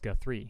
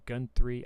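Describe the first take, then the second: First: The name is said without an N sound. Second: The name is said with an N sound. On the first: The speaker calls it right. "pronounce my last name correctly" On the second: The speaker calls it wrong. "I really don't understand where the N"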